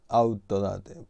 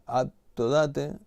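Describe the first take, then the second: First: Said in the usual way. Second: Autodate slowly, syllable by syllable, a bit higher; drawn-out demo word. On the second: Shown as a demonstration. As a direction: spell out Autodate slowly, as if showing it.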